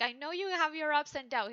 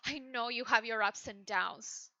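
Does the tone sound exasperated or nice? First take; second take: nice; exasperated. First: The line is said in a pleasant, friendly tone. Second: The line is said in an irritated, exasperated tone. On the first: He tries to sound kind on the surface. "he's trying to be nice" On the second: Underneath, he is fed up and wants it to stop. "you're driving me crazy, you need to stop. And then you just put it into the other side"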